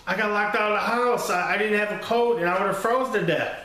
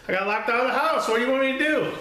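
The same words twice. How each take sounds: First: Higher, fast, lightly voiced kid excuse; pleading kid. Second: Put-on much higher, fast, pleading kid voice; desperate whine. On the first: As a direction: blurt the excuse like a scared boy. Kid defends himself to dad. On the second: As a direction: squeak it out like a cornered boy begging dad. Kid pleads with angry dad.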